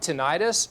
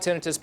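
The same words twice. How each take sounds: First: The ending sounds like 'eye-tis', like 'itis'. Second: The ending sounds like 'ih-tus', without 'itis'. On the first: "if you call it tinnitus, in medical terminology, itis" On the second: "I call it tinnitus"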